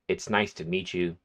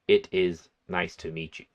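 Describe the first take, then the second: First: The words 'it is' are contracted to 'it's'. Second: The words 'it is' are said in full. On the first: It is what most people usually say. "They're going to say" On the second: It sounds longer and more formal. "Most people are not going to say"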